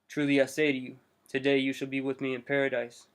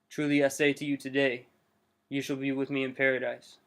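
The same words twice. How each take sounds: First: The pause comes before the word today. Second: The pause comes after the word today.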